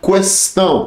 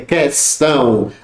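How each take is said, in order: First: The u after the q is pronounced. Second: The u after the q is silent. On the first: The speaker calls it wrong. "muita gente fala ... tá errado" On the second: The speaker calls it right. "é questão"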